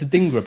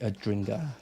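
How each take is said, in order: First: There is no r sound after the d. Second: An r sound follows the d. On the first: The speaker calls it right. "it's a dingra" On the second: The speaker calls it wrong. "not a, a, ding, a dringer"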